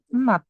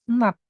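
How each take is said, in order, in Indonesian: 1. Kata ini berakhir dengan bunyi t. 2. Kata ini berakhir dengan bunyi t.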